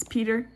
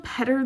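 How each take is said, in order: First: "Peter" with a long ee; actual name pronunciation. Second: "Petter" said as spelled, with a short e; spelling pronunciation. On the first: Artist correcting her character's name, "Peter" with long ee. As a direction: say "Peter" with a long first vowel, PEE-ter. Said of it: "It's Peter". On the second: Artist reading her character's name as spelled, "Petter" with short e. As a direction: say "Petter" with a short first vowel. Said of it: "it's spelled Petter there". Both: Shown as a demonstration.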